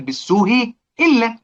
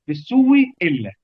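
First: "بالسوء إلا" with the first hamza softened, slow; eased hamza. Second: "بالسوء إلا" as "بالسوّ إلا", hamza turned to w and doubled; hamza swapped and merged. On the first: Teacher showing the basic rule on "بالسوء إلا" to students. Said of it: "دي القاعدة الأصيلة". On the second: Teacher demonstrating substitution and merging on "بالسوء إلا" to students. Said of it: "بقت إيه؟". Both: Shown as a demonstration.

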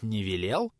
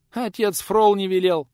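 First: "велел" rising at the end as a question; questioning echo. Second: High, loud, slow alarmed protest; frightened old woman. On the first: Acted. Visitor doubts the old woman, "велел" rising as a question. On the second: A narrator's reading. Old woman answers the visitor in fright, high protest. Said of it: "испуганно замотала головой старуха".

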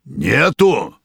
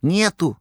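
First: Menacing bass roar. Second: Gentle woman's voice. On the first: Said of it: "грозным басом взревел повар". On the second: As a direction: ask it like a kind nurse. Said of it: "женским ласковым голосом спросил". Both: A narrator's reading.

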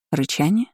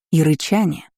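First: "Рычание?" as a question, pitch rising at the end; feigned surprise. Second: Said in the usual way. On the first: A narrator's reading. Daughter hiding fear from mother, feigned surprised "Рычание?". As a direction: echo "Рычание?" with mild put-on astonishment. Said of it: "Я попыталась придать голосу удивлённые интонации". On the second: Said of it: "придать голосу удивлённые интонации".

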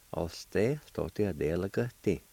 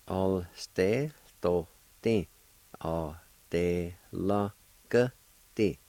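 First: Said in the usual way. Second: "All stay, to, ti. All day, la, ka, ti" with small gaps between syllables; syllable-by-syllable pronunciation. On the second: Shown as a demonstration. Teacher putting the parts all together, syllable by syllable. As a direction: step carefully through "All stay, to, ti. All day, la, ka, ti". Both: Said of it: "Put all together".

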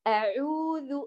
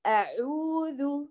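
First: أعوذ with the ain pressed as if doubled; faulty أعوذ demo; wrong merged ain. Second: أعوذ stretched very slowly, ain leaned on; exaggerated أعوذ; slow exaggerated error. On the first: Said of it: "البعض يمزج ضم العين بالسكون". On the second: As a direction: drag أعوذ showing the mistake. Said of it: "تتكئ على العين". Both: Shown as a demonstration.

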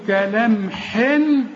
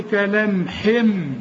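First: كلام حن ending on a clear held n; unchanged final n. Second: Slow كلام حم with a held final m; n turned to m. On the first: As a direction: finish حن with the tongue, sounding n. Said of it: "بدل ما تقول لي". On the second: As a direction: close the lips and hum the م of حم. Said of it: "قول لي كلام حم". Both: Shown as a demonstration.

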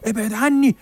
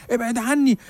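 First: Much higher, louder panicked cry of ابعد عني; terrified pleading. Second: Much higher panicked plea of ابعد عني; terrified pleading. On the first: Old man panics at the journalist, terrified high plea. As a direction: beg him to stay away in terror. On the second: Old man recoils from the journalist, high frightened plea. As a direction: shrink back, begging in fear. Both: Retold or imitated. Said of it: "بص لي برعب".

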